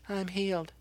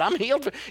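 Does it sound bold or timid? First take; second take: timid; bold. First: It is said weakly and timidly. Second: It is said boldly and forcefully.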